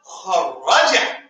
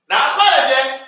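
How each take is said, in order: First: Kharaja stretched with a doubled r; slow model word. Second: Kharaja with a single short r; wrong form contrast. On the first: Teacher answers his own question slowly for students. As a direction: hold the r in kharaja and draw it out. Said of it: "we say what?". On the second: Teacher shows the form not to use. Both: Shown as a demonstration.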